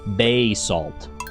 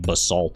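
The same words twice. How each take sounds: First: The first vowel is full and clearly pronounced. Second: The first vowel is weak and barely heard. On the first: The speaker calls it right. "I give respect to the first A" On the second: The speaker calls it wrong. "instead of like basalt or whatever. That's so boring"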